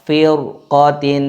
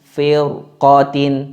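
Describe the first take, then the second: Both takes have the same delivery.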